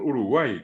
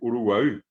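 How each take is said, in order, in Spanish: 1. Termina en una i simple del español. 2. Termina en la vocal central del guaraní.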